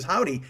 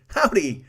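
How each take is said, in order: First: Said in the usual way. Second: Put-on loud, high Old West greeting; cowboy howdy. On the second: Shown as a demonstration. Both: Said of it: "that's a dude right there saying howdy".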